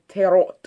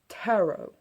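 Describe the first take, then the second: First: It is said in a German accent. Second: It is said in a British accent. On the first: "I myself am half German, and on the occasion I find myself slipping a half-hearted tarot" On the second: "In Britain, the pronunciation is kind of the same, only with the accent thrown in"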